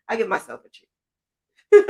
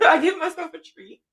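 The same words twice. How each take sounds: First: Said in the usual way. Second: Repeats the line through a laugh. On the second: Real, not acted. Creator telling viewers about her treats, laughing. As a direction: laugh it out, amused at herself.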